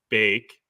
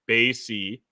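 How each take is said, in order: First: It is said as one syllable, bake. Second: It is said as two syllables, bay-see. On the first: "three ways to pronounce it" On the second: "three ways to pronounce it"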